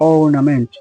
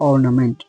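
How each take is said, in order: No difference in how they are said.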